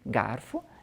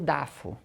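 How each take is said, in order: First: The word starts with a g sound and r. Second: The word starts with a d sound, no r. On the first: This is how adults normally say it. The speaker calls it right. "falar garfo de um jeito" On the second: This imitates a small child's speech. The speaker calls it wrong. "e vai outros assim"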